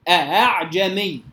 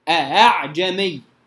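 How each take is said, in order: No difference in how they are said.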